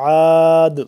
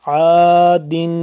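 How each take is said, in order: First: The word stops on a bare 'd' sound. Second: The word ends with an 'in' sound.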